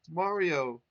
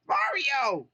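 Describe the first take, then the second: First: Louder call; cried out. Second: Very high, loud joyful cry; rescued Toad crying out happily; cried happily. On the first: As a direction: call his name out. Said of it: "he cried". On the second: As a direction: squeal his name with joy. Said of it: "he cried happily". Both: Acted.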